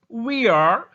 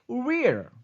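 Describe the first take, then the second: First: Two separate words are said in full. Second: The words merge into one short syllable.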